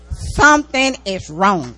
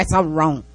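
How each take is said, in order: First: "Something is wrong" slowed and louder, each word leaned on; emphatic repeat. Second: Said in the usual way. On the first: Real, not acted. Preacher warns the congregation, slow and emphatic. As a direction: drive "Something is wrong" home slowly.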